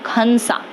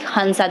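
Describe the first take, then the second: First: The name begins with a rough throaty kh. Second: The name begins with a soft breathy h. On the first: "they will Hansa, because they don't have her sound" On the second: "the Russian native speakers will not pronounce like Hansa"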